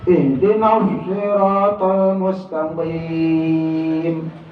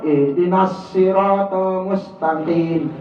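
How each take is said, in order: First: The s is emphatic with rounded lips. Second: The s is a plain hissing sound. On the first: The speaker calls it right. "agak monyong dikit" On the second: The speaker calls it wrong. "berarti sin tuh"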